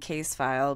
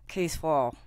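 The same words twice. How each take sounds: First: It is said in a plain American accent. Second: It is said in a put-on Australian accent. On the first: "I'm saying case file" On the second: "I've been working on my Australian accent. Ready, guys? All you gotta do is keep your teeth closed"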